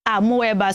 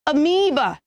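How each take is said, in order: First: Amoeba as "ah-mo-EH-ba"; wrong pronunciation. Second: Amoeba as "uh-MEE-buh"; correct pronunciation. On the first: Teacher contrasting the mistake, mispronounced amoeba. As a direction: say amoeba with "mo-eh" in the middle. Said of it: "not amoeba". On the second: Teacher repeating the right form, careful amoeba. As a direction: stress a long MEE in amoeba. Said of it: "You should say amoeba". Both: Shown as a demonstration.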